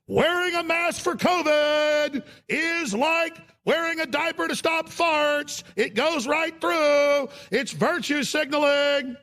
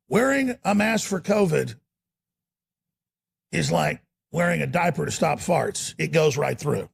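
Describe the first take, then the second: First: High, drawn-out bellow; mad on-air rant. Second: Said in the usual way. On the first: Shown as a demonstration. Host showing how he used to rant on air, mad bellow. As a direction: stretch every word into a high, sustained yell. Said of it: "I used to get mad on there". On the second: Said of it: "And I'd say, like".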